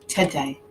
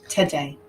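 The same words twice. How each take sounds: Both takes have the same delivery.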